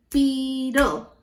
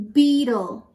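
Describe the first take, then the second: First: "Beetle" stretched into two distinct beats; syllable by syllable. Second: Said in the usual way. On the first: Shown as a demonstration. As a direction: sound out both syllables of "Beetle". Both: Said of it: "Two syllables".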